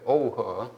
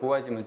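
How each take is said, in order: First: It is read with the Mandarin pronunciation. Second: It is read with the Korean pronunciation. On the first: "중국어로 하면은 오우허죠" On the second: "우리말로 하면 구화지만"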